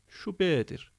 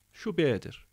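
No difference in how they are said.

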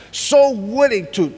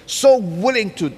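The two takes are said the same way.

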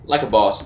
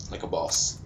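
First: Said in the usual way. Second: Low, soft aside; understated boast. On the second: Real, not acted. Gamer congratulates himself on winning, understated boast. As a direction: drop it quietly under the celebration. Quiet first take before louder repeat.

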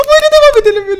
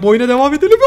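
First: Much higher and louder, stretched out; exaggerated loud question. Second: Said in the usual way. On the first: Shown as a demonstration. Vlogger asking viewers to vote, calling out high and loud. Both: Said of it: "Bir şey söyleyeceğim".

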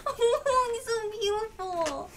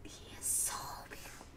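First: High, loud, slow wail; drawn-out cry of adoration; overwhelmed, tearful adoration. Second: Soft, quick whisper; hushed, breath-only admiration; awed whisper. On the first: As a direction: wail it out, close to tears. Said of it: "I'm trying not to cry". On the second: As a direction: whisper it, overcome with awe. Overwhelmed at returned character's appearance. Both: Real, not acted.

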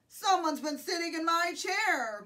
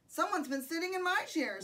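First: Loud storybook bear growl; Papa Bear growl. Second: Lightly voiced, higher mother bear; Mama Bear voice. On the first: Papa Bear finds his chair used, growled. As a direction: growl it loudly as the big bear. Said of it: "growled the Papa Bear". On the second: Mama Bear finds her chair used, lightly voiced. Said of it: "said the Mama Bear". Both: A narrator's reading.

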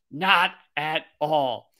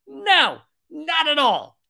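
First: Slow, spaced-out NOT AT ALL; deliberate denial. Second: Very high, drawn-out falling no; emphatic denial. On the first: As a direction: spell out NOT AT ALL word by word. Repeats denial slowly, in lower voice. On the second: Answers own rhetorical question emphatically. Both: Acted.

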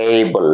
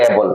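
First: "এই বল" with a long gliding ey; corrected "ey" vowel. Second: Said in the usual way. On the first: Shown as a demonstration. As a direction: stretch "এই" into a diphthong before "বল". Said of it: "এ বল না, উচ্চারণ হবে". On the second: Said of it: "যারা এ বলে তারা বলে".

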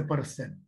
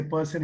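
First: "person" with a heavily sounded R; bold Andhra R. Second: Said in the usual way. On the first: Shown as a demonstration. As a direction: roll the R in "person", Andhra-style. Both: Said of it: "who will always pronounce R very boldly".

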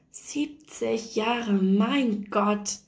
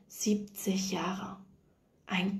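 First: Slow marvelling. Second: Slow, breathless whisper of disbelief; awed whisper. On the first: Young wife marvelling at seventy years, said very slowly. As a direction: stretch "Siebzig Jahre" out very slowly, voiced and full. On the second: Nurse repeating the old woman's words in a stunned whisper. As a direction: breathe the number out in wonder, almost silent. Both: A narrator's reading.

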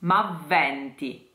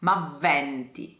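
First: "M'avventi" slowly, V held long; doubled V. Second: "M'avventi" with the N nasalized; "M'avventi", nasal vowel before the t. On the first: Diction coach models "M'avventi" slowly. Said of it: "Double V". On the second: Teacher repeats "M'avventi" with nasal N. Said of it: "It's a nasalized N". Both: Shown as a demonstration.

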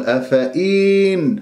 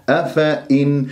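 First: أفإن with the silent ya sounded; wrong ya pronounced. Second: أفإن with no ya and a held nun; correct أفإن. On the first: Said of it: "خطأ". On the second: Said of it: "نون ساكنة". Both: Shown as a demonstration.

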